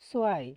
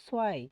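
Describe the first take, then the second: Both takes have the same delivery.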